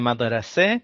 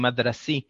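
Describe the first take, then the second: First: It is pronounced in the colloquial Arabic form. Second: It is pronounced northern-style, ending like a yod. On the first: "במדוברת זה מדרסה" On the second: "בצפון אפילו אומרים מדרסי, משהו שנשמע קצת כמו עם יוד"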